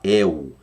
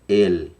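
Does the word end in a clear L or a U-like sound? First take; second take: U-like; clear L. First: The final L sounds like a U vowel. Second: The final L is a clear tongue-tip L. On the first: "A gente no Brasil fala El" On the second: "a pronúncia hebraica é El"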